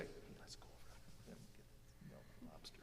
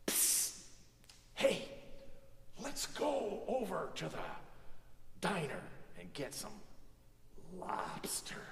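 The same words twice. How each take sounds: First: Very soft, barely audible whisper; real whisper. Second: Stage whisper. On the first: Whispering to the person next to you, real whisper. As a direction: whisper privately, for one listener only. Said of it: "a real whisper like I would whisper". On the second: Actor on stage to the person next to them, stage whisper. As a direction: whisper it out to the back row. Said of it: "So a stage whisper is something". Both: Shown as a demonstration.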